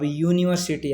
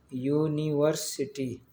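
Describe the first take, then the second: First: Said in the usual way. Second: यूनिवर्सिटी slowly as "yoo-ni-var-si-ti"; sound it out. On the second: Shown as a demonstration. Teacher showing the class the या start, यूनिवर्सिटी slowly in syllables. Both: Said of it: "तो या इसके भी आगे आ रहा है".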